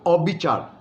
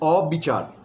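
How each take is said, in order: The two takes are said the same way.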